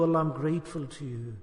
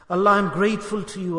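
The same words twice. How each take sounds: First: Soft inner thanks. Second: A plain, sincere thank you to Allah. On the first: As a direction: lower and much softer, almost inward. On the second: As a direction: say it simply, from the heart. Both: Shown as a demonstration. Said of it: "You have to say this".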